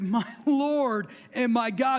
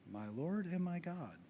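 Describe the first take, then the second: First: It is shouted loudly and excitedly. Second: It is said quietly, without shouting.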